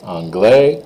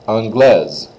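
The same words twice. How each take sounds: First: Anglais lifted, S left off; silent S. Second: Anglaise falling onto a Z. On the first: Teacher contrasts boy and girl forms, S dropped from anglais. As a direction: leave anglais open, without the S. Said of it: "you don't say the S at all". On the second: Teacher contrasts boy and girl forms, Z in anglaise. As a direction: buzz the last S of anglaise. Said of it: "you do say those S's as a Z sound". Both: Shown as a demonstration.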